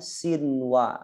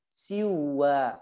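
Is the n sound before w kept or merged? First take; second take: kept; merged. First: The n is clearly kept before the w. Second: The n is merged into the following w. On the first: The speaker calls it right. "disebutkan seperti dunya dan sinwa" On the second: The speaker calls it wrong. "nggak boleh"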